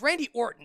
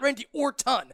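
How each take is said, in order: First: The T in Orton is soft and reduced. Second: The T in Orton is a hard, crisp T. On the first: The speaker calls it right. "It's Randy Orton" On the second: The speaker calls it wrong. "has the hard T when he's pronouncing"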